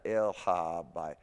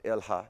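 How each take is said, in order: First: Slow el ha by, syllables pulled apart; el ha by broken up; wrong split el ha by. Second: El ha run together as one unit; el ha blended, no break; linked el ha. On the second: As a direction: join el into ha smoothly. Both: Shown as a demonstration. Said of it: "not el ha by".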